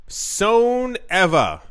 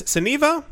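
First: "Soneva" as SOHN-EV-uh, very slow and higher; slow, deliberate "Soneva", falling at the end; drawn-out pronunciation. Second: "Soneva" as suh-NEE-vuh, high and rising; high-pitched puzzled "Soneva", rhyming with Geneva; questioning mispronunciation. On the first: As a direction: stretch "Soneva" out, long O then short E. Settles the resort name's pronunciation. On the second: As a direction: query "Soneva" with an EE in the middle. Trying out the resort name's pronunciation. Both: Shown as a demonstration.

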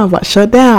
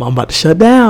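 First: Rising panic. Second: Panicky inner voice. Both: Retold or imitated. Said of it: "I can feel myself being like".

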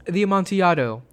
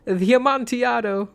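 First: Said in the usual way. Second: High, stretched, nervous-merry "The Amontillado"; cling to the joke with a high voice; pleading jolly high voice; Fortunato's voice. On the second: Acted. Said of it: "a sad voice".

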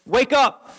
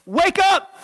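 First: "Wake up" said lightly, first call; gentle wake-up call. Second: "wake up" jumping higher, insistent; urgent wake-up call. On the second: God rousing Peter, a higher insistent "wake up". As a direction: push the second "wake up" up high. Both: Retold or imitated. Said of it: "I love you enough, Peter, to say".

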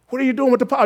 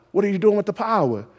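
First: Asked again higher and harder; pressing the question. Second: Said in the usual way. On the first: Shown as a demonstration. Preacher to congregation, repeating the question more insistently. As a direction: push the question home, pitch up. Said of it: "repeated higher". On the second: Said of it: "repeated louder".

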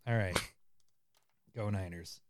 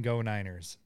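First: Repeated much softer and lower; quiet. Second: Said in the usual way. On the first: Shown as a demonstration. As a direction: mutter it under your breath. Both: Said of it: "He said".

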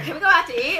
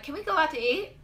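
First: High, loud question with a laugh; louder, pitched-up retold request; laughing repeat. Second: High-pitched, light question; small, high retold plea; innocent request. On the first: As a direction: repeat it insistently, amused. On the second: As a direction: ask it sweetly, pitched up. Retold innocent request after injury.

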